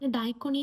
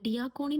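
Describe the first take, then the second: First: The first syllable sounds like 'dye'. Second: The first syllable sounds like 'dee'. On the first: The speaker calls it wrong. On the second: The speaker calls it right.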